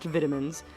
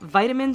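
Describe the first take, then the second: First: It is said with a British pronunciation. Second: It is said with an American pronunciation.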